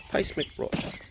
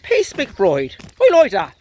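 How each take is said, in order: First: Hushed, barely voiced; quiet try-out. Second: High, proud mock Irish brogue. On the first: Real, not acted. Owner testing a name for his dog, hushed. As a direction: say the name under your breath. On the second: Owner approving his dog's new name, Irish accent. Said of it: "Pace talks with an Irish voice".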